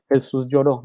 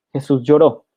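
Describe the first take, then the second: First: Said in the usual way. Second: Lloró punched louder, the word "lloró" hit hard and final; stress on lloró. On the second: Shown as a demonstration. Preacher announcing the shortest verse to the congregation, punching "lloró".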